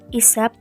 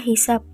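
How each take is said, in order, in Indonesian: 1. Kata ini langsung diawali vokal. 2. Kata ini diawali bunyi h. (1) "Kata baku" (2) "kata tidak bakunya dibaca"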